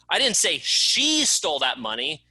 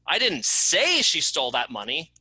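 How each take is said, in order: First: The word "she" is stressed. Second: The word "say" is stressed. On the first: Someone else stole it. "It wasn't her, it was someone else that stole it" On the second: It was written, not said. "I didn't say it, I wrote it"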